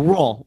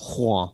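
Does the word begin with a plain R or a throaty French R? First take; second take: plain R; French R. First: The word begins with a plain R sound. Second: The word begins with a throaty French R sound. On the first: "So Rouen, I think, is good" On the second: "you're supposed to do some sort of or something like at the beginning"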